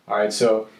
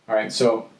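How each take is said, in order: No difference in how they are said.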